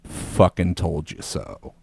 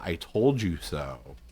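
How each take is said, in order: First: Low, slow smug dad voice; lightly voiced smug father; ghost dad voice. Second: Low, slow dry dad voice; dad's ghost voice. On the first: Ghost dad gloats at his son, low and slow. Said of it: "Force Ghost Dad out of nowhere goes". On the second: Retold or imitated. Son recalls his ghost dad's smug remark, low and slow. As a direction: drawl it like a smug dead dad. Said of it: "the first legit answer that I thought of".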